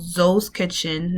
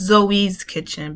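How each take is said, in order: First: Zoe is said the Creole way. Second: Zoe is said like the English name. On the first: The name comes from the Creole word for bone. The speaker calls it right. "Zoe in Creole means bone" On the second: The name is taken for a person called Zoe. The speaker calls it wrong. "not Zoe's Kitchen, because I'm tired of everybody getting that wrong"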